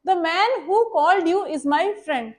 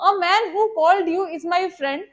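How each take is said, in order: First: The man who called you is my friend, read slowly word by word; slow, careful dictation of the example. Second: A at the start of A man who called you is my friend, given the main weight; slow wrong version, weight on A; stress on A. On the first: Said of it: "मैंने एक example लिखी है". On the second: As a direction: lean on the A to show the wrong article. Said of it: "The की जगह अगर मैं a लिखूं". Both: Shown as a demonstration.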